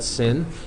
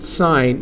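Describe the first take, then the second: First: It is said with a short vowel, like 'sin'. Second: It is said with a long vowel, like 'sign'. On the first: The speaker calls it wrong. "do not pronounce that sin" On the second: The speaker calls it right. "this is still pronounced sine"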